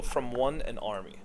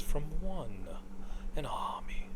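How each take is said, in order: First: Said in the usual way. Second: Imitating the voice line, fading to a whisper; breathy whispered hero line. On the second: Fan imitating Phantom Lancer's line in a whisper. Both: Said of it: "Like, the way he says it".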